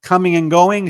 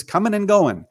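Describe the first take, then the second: First: Said in the usual way. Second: "coming" said as comin', g dropped at the end; dropped g's. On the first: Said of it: "instead of saying". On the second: Retold or imitated. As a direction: clip the g off "coming", comin' and goin'. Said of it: "she drops her G's".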